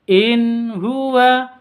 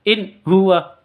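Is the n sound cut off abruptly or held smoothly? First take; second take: smooth; abrupt. First: The n sound is held smoothly, keeping its quality. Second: The n sound is cut off abruptly. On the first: The speaker calls it right. "seperti itu" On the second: The speaker calls it wrong. "tidak boleh seperti itu"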